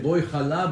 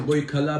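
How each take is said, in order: First: The second word starts with a throaty ch sound. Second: The second word starts with a hard k sound. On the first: The speaker calls it right. "We say boy chala" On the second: The speaker calls it wrong. "A lot of people say boy kala, boy kala. It's not kala"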